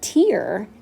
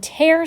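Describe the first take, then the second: First: It is pronounced as the noun form. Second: It is pronounced as the verb form. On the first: A drop of liquid. "when you're talking about a tear, as it's used in the poem, that's a noun" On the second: To rip or split something open. "when you tear something, it's a verb"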